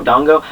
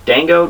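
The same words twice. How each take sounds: First: "Dango" with an open "ah", DAHNG-go; alternative pronunciation. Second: "Dango" with a flat "a" as in "dang"; uncertain pronunciation. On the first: Reviewer unsure of the food's name, tries "Dango" as DAHNG-go. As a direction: say "Dango" as DAHNG-go, rising in question. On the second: Reviewer unsure of the food's name, tries "Dango" as DANG-go. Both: Shown as a demonstration. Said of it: "I don't know".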